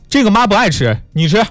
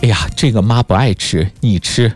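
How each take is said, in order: First: It sounds offhand and dismissive, like an indifferent parent. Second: It sounds warm and self-sacrificing, like a loving parent.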